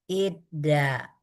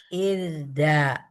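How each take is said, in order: No difference in how they are said.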